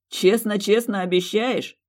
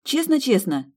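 First: Slow, teasing and mocking; mocking drawl. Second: Честно-честно high and eager; earnest echo. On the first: Fiancé mocking her childish promise, slow and teasing. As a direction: stretch it out in a sneer. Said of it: "издевательски протянул мужчина". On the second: Acted. Woman earnestly repeating the promise, high and eager. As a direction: answer with childish sincerity.

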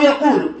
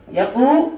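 First: Said in the usual way. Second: "يقول" broken as "يقو", pause, "لُ"; syllable split. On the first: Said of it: "أصله يقول". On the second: Shown as a demonstration. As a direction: hold the long waw in "يقول", then release the final "lu" separately. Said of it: "الألف ساكنة أو الواو".

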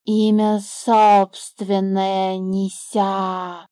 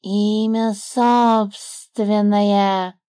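First: Slow drawn-out snake voice; the snake rejecting the bird's word; scornful snake. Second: Slow drawn-out smug snake voice; the snake pleased with himself. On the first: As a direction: drag it out like a lazy serpent. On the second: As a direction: say it proudly, tapping his chest. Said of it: "довольно постучал себя". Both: A narrator's reading.

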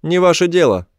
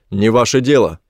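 First: High-pitched creature voice; high, curt brush-off from an alien; alien retort. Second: Said in the usual way. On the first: A narrator's reading. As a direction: throw the refusal back in a high alien voice. Alien repeats the narrator's retort.

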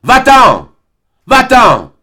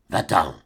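First: High, very loud, furious screaming; violent shout. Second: Quiet, softer, cold dismissal; low-voiced command. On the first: Acted. Albine driving Serge out, shouting violently. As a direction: hurl him out of the garden. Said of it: "elle lui cria violemment". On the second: Albine sending Serge away in a low voice. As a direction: say it under your breath, contemptuous. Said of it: "dit-elle à voix basse".

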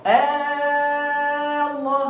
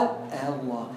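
First: "آه الله" with the first vowel held very long on one note; sustained recited vowel opening "آه الله"; long madd recitation. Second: "آه الله" low and soft, without the long vowel; lower, brief tasheel take of "آه الله"; short eased hamza. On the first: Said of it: "يعني تقول". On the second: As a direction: glide quickly over the second hamza in "آه الله". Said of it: "أو". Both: Shown as a demonstration.

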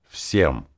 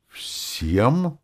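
First: Stern, final one-word answer. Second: High, appalled question; horrified squeak of disbelief. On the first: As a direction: cut it off firmly, tune falling. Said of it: "сурово отрезал я". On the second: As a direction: ask it aghast, pitch shooting up. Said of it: "в ужасе вспыхнула Роза". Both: A narrator's reading.

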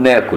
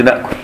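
First: ناكل said naakul, the long a and no hamza; naakul without hamza. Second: ناكل with a glottal stop before the k; hamzated na'kul. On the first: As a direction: say ناكل the Egyptian way, with no glottal stop. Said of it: "إحنا نقول". (ناكل بغير همز) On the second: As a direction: say ناكل as na'kul, the form we do not use. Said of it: "ما نقولش". (ناكل بالهمز) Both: Shown as a demonstration.

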